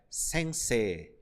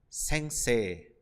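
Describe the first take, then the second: Both takes have the same delivery.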